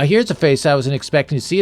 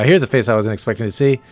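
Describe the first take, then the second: First: It is read in a put-on character voice. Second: It is read without the character's put-on voice. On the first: The speaker calls it right. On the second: The speaker calls it wrong.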